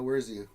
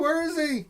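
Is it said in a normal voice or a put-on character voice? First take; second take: normal; put-on. First: It is said in his normal voice. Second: It is said in the Where's Poe voice.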